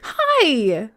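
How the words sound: It is said in a high, squeaky voice.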